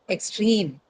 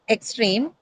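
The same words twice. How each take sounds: First: The stress is on the second syllable. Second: The stress is on the first syllable. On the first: The speaker calls it right. "but extreme, right?" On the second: The speaker calls it wrong. "So not extreme"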